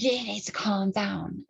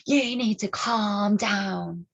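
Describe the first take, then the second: First: Slow whispered imitation of the woman; whispered mock. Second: Slow, drawn-out put-on voice of the woman; imitating condescending woman. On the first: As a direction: hiss it slowly under your breath. Quoting the woman again. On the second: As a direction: lecture her slowly and patronizingly. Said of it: "And she's like".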